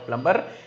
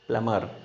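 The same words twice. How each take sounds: First: A B sound is heard after the M. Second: No B sound is heard after the M. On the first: The speaker calls it wrong. "It's not a plumber" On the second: The speaker calls it right. "It's a plumber, not B"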